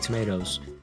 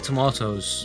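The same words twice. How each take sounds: First: It is said with an American pronunciation. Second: It is said with a non-American pronunciation.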